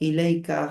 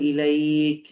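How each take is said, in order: First: The word ends with a final 'a' vowel. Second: The word ends on the 'k' consonant. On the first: The reading continues past this word. "এখানে না থামলে ইলাইকা হবে" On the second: The reader stops at this word. "আর যদি থামেন তাহলে ইলাইক"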